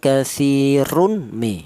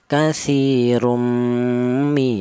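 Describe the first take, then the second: First: The n is pronounced clearly before the m. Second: The n merges into a long nasal m. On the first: The speaker calls it wrong. "tidak boleh tanwin ini dibaca idhar ... idhar itu jelas" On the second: The speaker calls it right. "dibaca ada suara berdengung ... dua ketukan"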